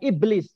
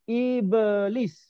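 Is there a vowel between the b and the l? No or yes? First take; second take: no; yes. First: The b and l run together without a vowel. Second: An extra vowel separates the b and l. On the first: The speaker calls it wrong. "bukan iblis" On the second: The speaker calls it right. "tapi ibelis"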